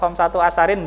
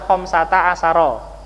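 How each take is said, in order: First: The second word ends in '-in'. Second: Both words end in a short 'a' vowel. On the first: The speaker calls it wrong. "atau khamsatu asarin enggak ya" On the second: The speaker calls it right. "Makanya kita baca khamsata asara"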